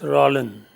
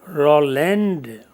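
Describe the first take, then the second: First: The final d sound is silent. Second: The final d sound is clearly heard. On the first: The speaker calls it right. "but we will pronounce Roland" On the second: The speaker calls it wrong. "and not Roland, although the spellings take D at the end"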